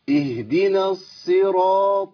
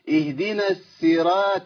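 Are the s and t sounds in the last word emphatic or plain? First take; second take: emphatic; plain. First: The s and t sounds are heavy and emphatic. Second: The s and t sounds are light and plain. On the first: The speaker calls it right. "قول ده كويس قوي" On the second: The speaker calls it wrong. "الصاد ابدلتها بسين والطاء ابدلتها بايه؟ بتاء"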